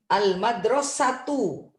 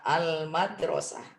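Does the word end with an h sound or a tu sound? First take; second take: tu sound; h sound. First: The word ends in a t plus u vowel. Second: The word ends in a soft h sound. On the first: The word is read joined to what follows. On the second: The word is read on its own, at a stop.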